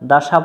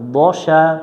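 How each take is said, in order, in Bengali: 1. প্রথম ব্যঞ্জনটি হালকা ও পাতলা। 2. প্রথম ব্যঞ্জনটি ভারী ও মোটা। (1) "দাসা পড়া যাবে না" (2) "মোটা করে পড়তে হয়"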